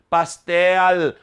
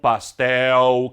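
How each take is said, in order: First: The final L is pronounced as a clear L. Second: The final L sounds like a U vowel. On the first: "Nós não falamos" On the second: "da mesma forma que falamos degrau, chapéu e troféu"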